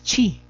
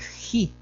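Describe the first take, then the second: First: The word starts with a ch sound. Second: The word starts with a harsh h sound. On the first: This is the Latin pronunciation. "en latín es chi" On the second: This is the Castilian pronunciation. "en el castellano es ji"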